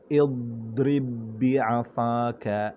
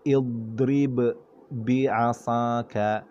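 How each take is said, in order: First: The two b sounds merge into one held b. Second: The first b is released with a bounce.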